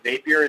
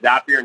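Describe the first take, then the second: First: The first vowel sounds like the one in day. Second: The first vowel sounds like the one in happy. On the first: The speaker calls it wrong. "not Zapier" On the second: The speaker calls it right. "it's Zapier ... it rhymes with happier"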